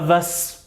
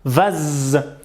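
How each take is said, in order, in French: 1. Le mot se termine par un son s. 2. Le mot se termine par un son z. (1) "et pas vas" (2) "Le S il a peur donc il fait z"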